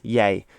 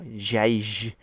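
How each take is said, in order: First: The word begins with a Y sound. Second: The word begins with an English J sound. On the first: The speaker calls it right. "it's yay" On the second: The speaker calls it wrong. "it's not jij"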